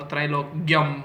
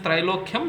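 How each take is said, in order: First: The ending is not a clear 'kyam' sound. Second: The ending is a clear 'kyam' sound. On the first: The speaker calls it wrong. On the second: The speaker calls it right. "that's how you're supposed to pronounce it"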